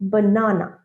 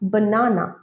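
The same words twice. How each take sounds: First: The first vowel is an open 'ah' sound. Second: The same.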